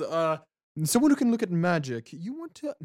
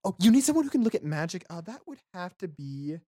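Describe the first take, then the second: First: Lightly voiced Jala, higher and louder at first; a higher-pitched attempt at a character voice; botched Jala voice. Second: High, quick character voice; Jala. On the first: Game master misses Jala's voice answering the party, botched character voice. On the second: Acted. Game master retries Jala answering about magic, quick high voice. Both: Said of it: "that was not Jala's voice either".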